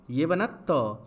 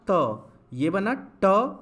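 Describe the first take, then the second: First: त with the tongue tip on the teeth; dental त. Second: ट with the tongue curled back, slow and stressed; retroflex ट. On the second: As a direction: draw out ट hard and retroflex. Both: Shown as a demonstration. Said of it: "उच्चारण को अच्छे से सुनिए".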